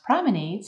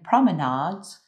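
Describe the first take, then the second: First: The word is said in an American pronunciation. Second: The word is said in a British pronunciation. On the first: "in American English" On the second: "in British English"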